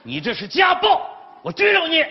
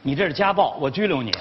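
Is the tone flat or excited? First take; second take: excited; flat. First: It is said with excitement. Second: It is said flatly, without excitement.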